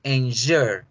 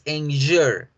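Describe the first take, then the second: No difference in how they are said.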